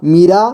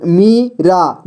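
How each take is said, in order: First: Said in the usual way. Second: Meera slowly as मी, pause, रा; syllable by syllable. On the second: Shown as a demonstration. Teacher showing beginners how to read Meera, syllable by syllable. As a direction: break Meera into two long syllables. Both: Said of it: "जोड़ जोड़ करके ही पढ़ना होगा".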